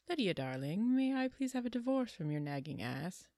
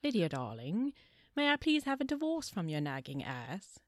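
First: It is said in her normal American accent. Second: It is said in a put-on British accent.

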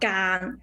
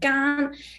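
First: The syllable is said with the third tone. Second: The syllable is said with the first tone. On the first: "The other one is three tone" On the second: "it will pronounce the first tone"

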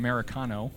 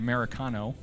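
First: The word is said the way Americans say it. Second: The same.

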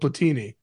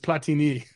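First: The name is pronounced the Italian way. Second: The name is pronounced the French way. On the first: The speaker calls it wrong. "one guy went to Italy with it because of the way I said it" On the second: The speaker calls it right. "told me it's Platini"

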